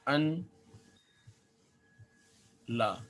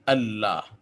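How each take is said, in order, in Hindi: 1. दो अलग शब्द, साफ़ n की आवाज़ के साथ। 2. एक जुड़ा हुआ शब्द, डबल l की आवाज़ के साथ। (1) "ये इसकी असल शक्ल है" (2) "ये दोनों मिलकर फिर ये हो जाते हैं अल्लाह"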